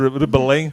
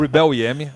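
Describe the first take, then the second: First: The name ends in a 'ling' syllable. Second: The name ends with the letters E and M. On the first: The speaker calls it wrong. "perdoe a minha, minha pronúncia portuguesa" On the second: The speaker calls it right. "Então eu sabia que a pronúncia estava errada"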